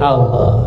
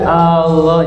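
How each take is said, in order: First: The first vowel is kept short. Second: The first vowel is drawn out long. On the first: The speaker calls it right. "Tidak boleh dipanjangkan A-nya. Jadi Allah" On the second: The speaker calls it wrong. "kalau A-nya dipanjangkan Allah"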